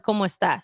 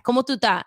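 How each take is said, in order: First: Said in the usual way. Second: "¿Cómo tú estás?" run together with the s sounds dropped; casual slurred "¿Cómo tú estás?"; street Spanish slang. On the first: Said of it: "instead of". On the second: Shown as a demonstration. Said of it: "I wanted to talk like that".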